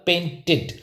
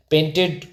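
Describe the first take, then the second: First: "पेंटेड" repeated carefully as PAIN-tid; teacher's model "पेंटेड", ending -id; correct pronunciation. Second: "पेंटेड" with open e, PAIN-ted; wrong pronunciation. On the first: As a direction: end "पेंटेड" with short i before d. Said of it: "क्या हो जाएगा". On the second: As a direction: end "पेंटेड" in -ted, as in bed. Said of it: "incorrect है". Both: Shown as a demonstration.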